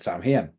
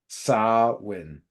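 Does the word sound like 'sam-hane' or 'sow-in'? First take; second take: sam-hane; sow-in. First: It is said as spelled, like sam-hane. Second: It is said in two parts, like sow-in. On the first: The speaker calls it wrong. "had pronounced it how it was written" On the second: The speaker calls it right. "the actual word is it's more like S O W N, but split into two"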